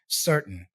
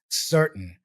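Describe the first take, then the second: First: The middle T is a glottal stop. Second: The middle T is a glottal stop.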